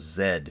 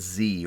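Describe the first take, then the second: First: The letter is said as zed, British style. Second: The letter is said as zee, American style.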